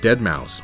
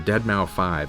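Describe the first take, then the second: First: The name ends with the sound 'mouse'. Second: The name ends with the word 'five'.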